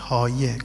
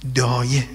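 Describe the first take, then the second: First: The word begins with a t sound. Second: The word begins with a d sound. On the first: "تلفظ بعدیش چیه؟ تایه" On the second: "بین دال و ته"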